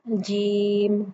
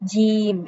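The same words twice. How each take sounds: First: The j sound is thin, not nasal or ch-like. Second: The j sound is mixed with a ch sound. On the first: The speaker calls it right. "ज साउंड है ना" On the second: The speaker calls it wrong. "इसमें चे की मिलावट हो जाएगी जो कि गलत है"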